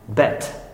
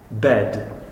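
First: The word ends with a voiceless t sound. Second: The word ends with a voiced d sound. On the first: The speaker calls it wrong. "Czech people would read it as bet" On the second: The speaker calls it right. "You must say bed"

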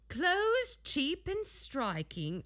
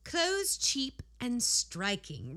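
First: It is said in a put-on, lower-class character voice. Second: It is said in the reader's own natural voice. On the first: "Is she putting on a character voice? ... a little lower class" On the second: "No. I'm going back"

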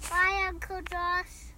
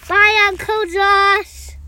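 First: It is said at a normal, quieter volume. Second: It is said much more loudly.

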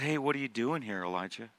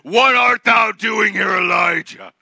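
First: It is said softly and gently. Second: It is said harshly and threateningly.

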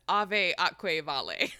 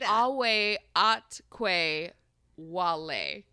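First: The V sounds are said like V. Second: The V sounds are said like W. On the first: The speaker calls it wrong. "We've been pronouncing it as ave atque vale" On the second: The speaker calls it right. "the V's in Latin are pronounced like W"

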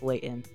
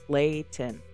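First: The middle T is dropped, Utah style. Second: The middle T is clearly pronounced.

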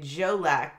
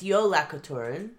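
First: It is pronounced with an American-style reading. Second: It is pronounced with an Icelandic-style reading. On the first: The speaker calls it wrong. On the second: The speaker calls it right.

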